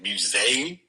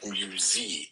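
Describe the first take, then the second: First: The stressed vowel sounds like 'ay' in 'they'. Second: The stressed vowel sounds like 'ee' in 'see'. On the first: This is how the other person says it. "You do a they, like, as in, like" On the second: This is how the speaker says it. "I do a Z, like a more of an E, like"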